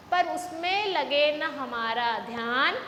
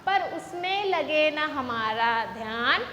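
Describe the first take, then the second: No difference in how they are said.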